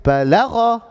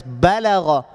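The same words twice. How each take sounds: First: BaLAgha, short ba and raised, heavy LAgha; misplaced stress. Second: BAlagha, emphasis on the opening BA; stress on first syllable. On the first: Retold or imitated. Teacher imitates what some people say, baLAgha stressed mid-word. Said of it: "I hear some people saying". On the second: Shown as a demonstration. Teacher shows how to pronounce it, BAlagha stressed up front. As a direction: lean on BA and let Balagha fall away. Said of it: "pronouncing it like this".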